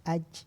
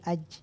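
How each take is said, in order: Both takes have the same delivery.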